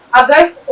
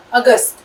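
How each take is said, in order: First: اگست said the English way, like "Ogust"; اگست with an English O sound at the start; اگست pronounced as English August; wrong English-style August. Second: اگست said with an open A sound at the start, "Agast"; اگست the Urdu way, starting with alif; اگست pronounced in proper Urdu; correct Urdu August. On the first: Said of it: "اگست نہیں کہنا ہے". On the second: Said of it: "تو ہم اس کو الف". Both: Shown as a demonstration.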